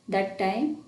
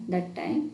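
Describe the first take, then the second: No difference in how they are said.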